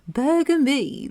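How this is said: It is said in a posh British accent.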